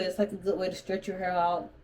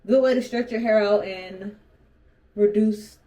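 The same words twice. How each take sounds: First: Talking with retainers in; words slurred round a retainer; wearing a retainer. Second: Retainer in, repeated more carefully; wearing a retainer. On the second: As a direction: say it around a dental retainer. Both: Real, not acted. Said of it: "I'm talking where I have my retainers in".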